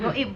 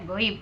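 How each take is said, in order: First: The vowel in the word is short. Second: The vowel in the word is drawn out. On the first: The speaker calls it wrong. "bukan goib Bu ya" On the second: The speaker calls it right. "karena itu kan madlin ya"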